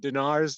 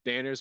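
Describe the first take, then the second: First: The name is pronounced as Dinar. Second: The name is pronounced as Danner. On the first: The speaker is feeling authoritative. "more powerful when you're feeling authoritative" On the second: The name is just part of a sentence. "when you're just it's part of a middle of a sentence, not that important"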